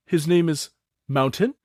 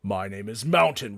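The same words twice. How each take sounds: First: A touch higher, proud introduction; higher old goblin naming his nephew; elder goblin Thook. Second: Lower, heavy, stating his name; big orc Mountain. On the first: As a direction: present the nephew with goblin pride. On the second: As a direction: plant the name like a boulder. Mountain introduces himself. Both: Acted.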